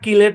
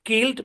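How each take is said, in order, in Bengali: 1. শেষাংশটি আলাদা একটি সিলেবল হিসেবে উচ্চারিত হয়। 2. শেষাংশটি অতিরিক্ত কোনো সিলেবল ছাড়াই শব্দের সাথে যুক্ত হয়। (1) "কিলেড না" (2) "শুদ্ধ উচ্চারণ"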